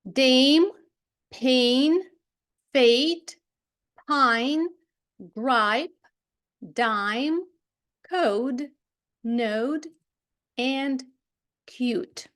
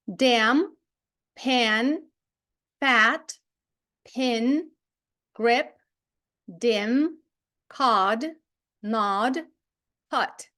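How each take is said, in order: First: "Dame, pain, fate, pine" each with a long gliding vowel; careful word-by-word drill, long vowels in "Dame" and "pine". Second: "Dam, pan, fat, pin, grip" each with a short vowel; careful word-by-word drill, short vowels in "Dam" and "pin". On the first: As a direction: read out separate words like "dime", "code", "node", "cute" with alphabet-name vowels. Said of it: "і отримуємо довгий звук". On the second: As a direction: read out separate words like "dim", "cod", "nod", "hut" with short vowels. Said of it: "ми маємо короткий звук". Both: Shown as a demonstration.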